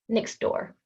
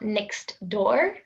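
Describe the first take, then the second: First: The t and d merge together. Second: The t and d are pronounced separately. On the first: The speaker calls it right. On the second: The speaker calls it wrong.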